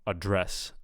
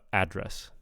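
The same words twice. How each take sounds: First: The stress is on the second syllable. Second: The stress is on the first syllable. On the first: It is used as a verb. "when it's a verb, the stress will be on the second syllable" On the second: It is used as a noun. "when it's a noun, the stress will be on the first syllable"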